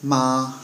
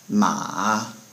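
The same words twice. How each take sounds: First: The pitch stays high and level. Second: The pitch dips down then comes up. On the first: It means mother. "first tone ... high and flat" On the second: It means horse. "it kind of has a little dip in it"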